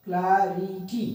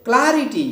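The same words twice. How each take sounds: First: clarity slowly split into syllables. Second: clarity with क्लै high and loud, then falling; stress on first syllable. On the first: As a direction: break clarity into spaced syllables. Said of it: "अलग-अलग syllables को". (Clarity को अलग-अलग syllable में, धीरे) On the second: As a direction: hit क्लै in one quick clarity. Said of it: "इस पे CL पे जोड़ देंगे". (क्लैरिटी में क्लै पर ज़ोर) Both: Shown as a demonstration.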